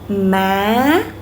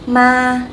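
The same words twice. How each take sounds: First: The pitch goes up through the word. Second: The pitch stays level and a little long. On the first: "Go up, right?" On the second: "ma is flat and a little bit long"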